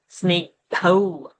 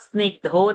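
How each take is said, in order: First: The word ends with an 'au' vowel. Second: The word ends with a plain 'o' vowel. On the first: The speaker calls it right. "Au sound has to be there" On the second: The speaker calls it wrong. "It's not snake dho"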